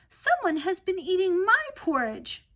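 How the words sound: It is said in a tiny little voice.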